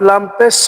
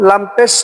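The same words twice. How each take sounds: The two takes are said the same way.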